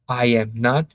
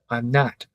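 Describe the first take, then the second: First: I and am are said as two full words. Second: I and am are joined into one syllable. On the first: It sounds more formal. "full pronunciation" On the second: It sounds more informal. "the reduced"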